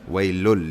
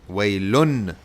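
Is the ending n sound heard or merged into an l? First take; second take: merged; heard. First: The n sound merges into a following l. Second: The final n sound is clearly pronounced. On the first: "You don't hear the noon" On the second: "that means you do pronounce the noon"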